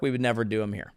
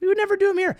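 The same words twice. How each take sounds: First: Low muttered aside; quiet low throwaway; dropped, soft. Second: High-pitched mock echo; high mocking repeat. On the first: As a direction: say it under your breath. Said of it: "first take, dropped low". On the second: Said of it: "second take, much higher". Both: Shown as a demonstration.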